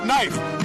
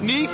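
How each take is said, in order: First: The name rhymes with knife. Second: The name rhymes with reef. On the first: "If it's Knife, he knifed his way in" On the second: "I'll give you two ways to pronounce it"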